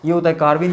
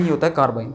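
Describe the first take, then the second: First: carbene said with a rising tune, a little louder, like a question left open; stating the term. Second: carbene said lower, with a falling final tune, as a closing statement; settling the term. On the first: Teacher presenting the term to class, rising tune on carbene. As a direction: lift the end of carbene upward. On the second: Teacher confirming the term to class, falling tune on carbene. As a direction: bring carbene down to a firm close. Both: Shown as a demonstration. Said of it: "minus three, यहाँ पर minus टू।".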